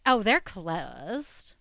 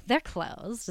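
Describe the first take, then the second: First: Slow, bored "Oh, they're closed"; flat bored clerk. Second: Dull, bored "They're closed". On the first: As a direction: say it like a clerk who couldn't care less. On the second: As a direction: repeat the clerk's flat "They're closed". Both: Retold or imitated. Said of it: "is the way she said it".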